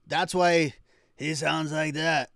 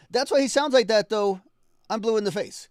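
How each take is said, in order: First: Loud, raised rough-voiced impression; half-hearted imitation of a rough voice; imitating a gravelly voice. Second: Much higher and louder, fired up; excited shout. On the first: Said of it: "That, that's not how he sounds, but you get the idea". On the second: Real, not acted. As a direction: belt it out with excitement. Excited loud commentary.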